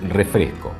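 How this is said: The s sound is weakened, Argentine style. "en Argentina diríamos"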